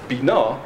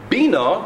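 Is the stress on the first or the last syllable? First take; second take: last; first. First: The stress is on the last syllable. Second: The stress is on the first syllable. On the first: It names the concept of understanding. "Bina is a concept" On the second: It is a request to give understanding. "with the emphasis on the earlier syllable, with stress there, is a request"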